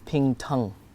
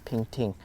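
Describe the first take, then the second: First: The second syllable has the vowel of 'tung'. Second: The second syllable has the vowel of 'ting'. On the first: "I think it's ping tung" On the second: "I always pronounce it as ping ting"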